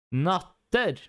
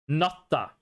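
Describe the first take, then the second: First: "Natter" spelled out, hard t and a clear final r; "Natter" yazıldığı gibi söyle, sert t ve net r ile; natter as written. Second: "Natta" with a held t and a short open a; "Natta" t'de dur, sonra kısa açık a; dialect natta. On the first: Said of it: "I'm gonna pronounce it the way it's written". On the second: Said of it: "in my dialect". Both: Shown as a demonstration.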